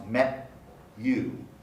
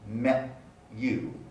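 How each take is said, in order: First: A separate t and y sound are heard. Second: A separate t and y sound are heard.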